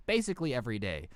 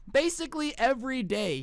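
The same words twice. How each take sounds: First: Low, quick and resigned; tossed off like it's routine; weary manager. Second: Much higher and louder, Basically stressed; emphatic repeat. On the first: Manager answering how often it happens, low and weary. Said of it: "he goes". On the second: Vlogger repeating the manager's answer, emphatic. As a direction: echo Basically every day in disbelief. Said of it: "repeating the manager's answer". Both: Retold or imitated.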